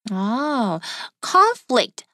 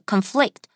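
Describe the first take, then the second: First: The stress is on the first syllable. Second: The stress is on the second syllable. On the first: It is used as a noun. "我们可以当作名词，注意我的重音哦" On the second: It is used as a verb. "可是本课我们的conflict"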